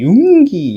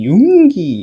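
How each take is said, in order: First: The pitch rises as if going upward. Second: The same.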